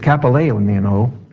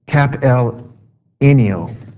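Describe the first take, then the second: First: The word is said at a normal, quicker pace. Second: The word is said slowly and carefully. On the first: The speaker calls it wrong. "I probably said that wrong" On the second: The speaker calls it right. "I'll say it slower"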